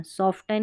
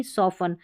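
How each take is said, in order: First: सॉफ्टन with the T sounded; wrong pronunciation. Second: सॉफन with a silent T; correct pronunciation. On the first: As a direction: say सॉफ्टन with a T after F. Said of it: "सॉफ्टन नहीं". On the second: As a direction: say सॉफन, no T after F. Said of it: "ये वाला silent है सॉफन में". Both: Shown as a demonstration.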